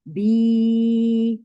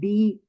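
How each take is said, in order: First: The vowel is drawn out for about two seconds. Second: The vowel is clipped short and quick. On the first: The speaker calls it right. "आराम से बिल्कुल ठहरा के कि दो सेकंड तक आपकी आवाज खींचे" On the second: The speaker calls it wrong. "ऐसे नहीं बी बस जल्दी से उंगली खोली बंद करी"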